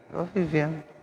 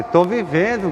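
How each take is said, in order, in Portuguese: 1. A voz soa sombria e melancólica. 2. A voz soa brilhante e alegre. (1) "Aquela voz assim de sombria" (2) "Não fala assim"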